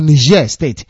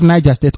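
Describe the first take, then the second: First: Niger is pronounced the French way. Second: Niger is pronounced the plain English way.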